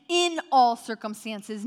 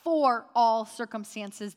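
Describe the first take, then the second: First: "In" pressed hard, louder and slowed; stress on IN. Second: "for" stressed as the wrong reading, slowed. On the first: Pastor pointing the congregation to the word "In", stressed. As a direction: lean on the word "In", not "for". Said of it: "I want you to notice right there". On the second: Pastor contrasting the wrong word "for", stressed. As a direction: hit "for" slowly to show the contrast. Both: Shown as a demonstration.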